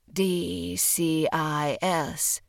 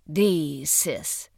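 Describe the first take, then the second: First: D C I S, each letter said separately; spelled-out letters. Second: D sis, one word, stress on D. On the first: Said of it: "Pronouncing the individual letters of the acronym". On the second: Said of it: "stress on the first". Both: A narrator's reading.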